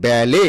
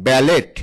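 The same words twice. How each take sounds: First: ব্যালে with a silent final T; correct pronunciation. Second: ব্যালেট with the final T sounded; mispronounced ব্যালেট. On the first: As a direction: say ব্যালে ending on an open "ay". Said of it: "সঠিক উচ্চারণ হচ্ছে". (ব্যালে, শেষের ট অনুচ্চারিত) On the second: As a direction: say ব্যালেট as spelled, ending in a hard T. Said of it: "ব্যালেট উচ্চারণটা সঠিক নয়". (ব্যালেট, শেষে ট উচ্চারণ করে) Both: Shown as a demonstration.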